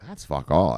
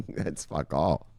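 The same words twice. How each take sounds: First: Said in the usual way. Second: Drawn out, very slow and low and soft; a slow, lazy scoff; slow dismissive repeat. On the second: Real, not acted. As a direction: let it drag out, unimpressed.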